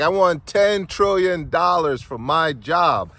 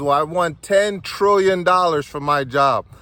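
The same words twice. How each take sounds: First: Very slow, loud, swaggering declaration; milk every word with swagger, high and loud. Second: Loud, high, stretched-out price demand; name your huge price boldly and slowly; confident demand. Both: Retold or imitated. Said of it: "Now I'm feeling all swagnificent".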